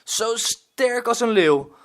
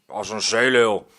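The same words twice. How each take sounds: First: Put-on high, slow, awed child voice stressing als; Frank's line "als een leeuw" said high and wondering by the child; admiring little boy. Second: Gruff growl. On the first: Rescued boy praises the pirate, high admiring voice. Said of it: "zegt Frank". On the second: Acted. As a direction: grumble back like a rough old sea dog. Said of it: "gromt woeste Willem".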